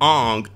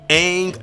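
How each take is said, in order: First: The vowel sounds like the o in long. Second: The vowel sounds like the a in cat. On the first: The speaker calls it wrong. "not Ong M Night" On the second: The speaker calls it right. "Aang, not Ong"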